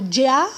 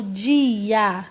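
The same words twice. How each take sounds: First: Said in the usual way. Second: "dia" slowly with "di" and "a" kept apart; split syllables. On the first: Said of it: "Como é que eu falo?". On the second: Shown as a demonstration. Teacher showing children the hiatus in "dia", slower. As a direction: separate "di" and "a" slowly. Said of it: "ou eu falo dia?".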